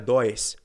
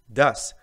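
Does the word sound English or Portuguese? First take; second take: Portuguese; English. First: It is said with a Portuguese pronunciation. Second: It is said with an English pronunciation. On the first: The speaker calls it wrong. "não é does" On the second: The speaker calls it right. "Pronúncia do, does"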